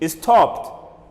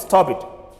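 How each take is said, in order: First: The ending is a short t sound. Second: The ending is an extra id syllable. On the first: The speaker calls it right. "the E D should be pronounced as T" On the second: The speaker calls it wrong. "Don't say stop it"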